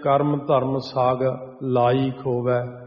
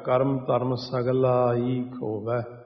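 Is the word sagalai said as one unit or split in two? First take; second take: split; one unit. First: The word sagalai is broken into two parts. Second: The word sagalai is said as one unit. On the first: The speaker calls it wrong. "ਜਿਵੇਂ ਕਰਮ ਧਰਮ ਸਾਗ ਲਾਈ ਖੋਵੈ" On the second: The speaker calls it right. "ਇਹਨੂੰ ਬੋਲਣ ਦਾ ਤਰੀਕਾ"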